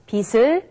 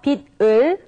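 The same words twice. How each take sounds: First: The final consonant changes its sound before 을. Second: The final consonant keeps its standalone sound. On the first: The speaker calls it right. "but it's 빛을" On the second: The speaker calls it wrong. "So it's not 빛을"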